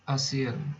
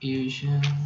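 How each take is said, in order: First: It is said as ah-see-an. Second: It sounds like the word Asian. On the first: The speaker calls it right. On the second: The speaker calls it wrong.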